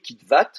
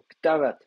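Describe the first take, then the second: First: The stress is on the last syllable. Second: The stress is on the first syllable. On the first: "vous accentuez la dernière syllabe" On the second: "mais du coup je lui donne l'accent"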